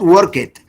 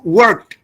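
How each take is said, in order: First: The word ends with an extra syllable. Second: The word ends in a plain t sound. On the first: The speaker calls it wrong. "not work it" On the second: The speaker calls it right. "who worked is a T sound at the end"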